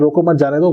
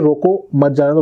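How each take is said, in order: First: The pause comes right after 'mat'. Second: The pause comes right after 'roko'. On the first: Do not stop him; let him go. "Which means कि don't stop him, let him go" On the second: Stop him; do not let him go. "Which mean stop"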